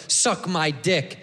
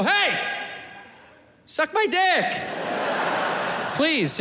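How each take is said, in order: First: Negative tone. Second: Hey, suck my dick pitched high and friendly; said nice. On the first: Comic showing how men say it as an insult, slow and sneering. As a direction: Suck my dick said slow and low, sneering. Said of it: "We say it negative". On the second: Comic showing the nice way to say it, high and friendly. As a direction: offer Hey, suck my dick like a kind invitation. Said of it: "We should say it nice". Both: Shown as a demonstration.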